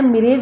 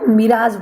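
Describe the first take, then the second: First: The second vowel sounds like 'ay'. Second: The second vowel sounds like 'ah'. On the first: The speaker calls it wrong. "मिरेज नहीं बनेगा" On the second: The speaker calls it right. "इसको मिराज बोलते हैं।"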